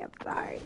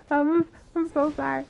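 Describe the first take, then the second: First: Soft voiceless whisper; whispered apology. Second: Said in the usual way. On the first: Real, not acted. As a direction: murmur it guiltily so only she hears. After fire mistake.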